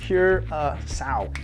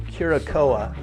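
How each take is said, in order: First: The word ends with a 'kow' sound. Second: The word ends with a 'koh-uh' sound. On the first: The speaker calls it right. "it's curacao" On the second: The speaker calls it wrong. "It's not curacoa"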